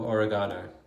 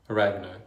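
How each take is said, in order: First: It is said in a non-American accent. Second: It is said in an American accent. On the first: "it's called oil of oregano" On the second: "as Americans would say"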